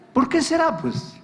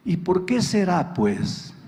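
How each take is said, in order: First: Pointed repeat. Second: Wife asks it dryly, in a plain even voice; a first, calm sly jab; wry wife's question. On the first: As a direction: hit "¿Por qué será" much higher, driving the point home. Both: Retold or imitated.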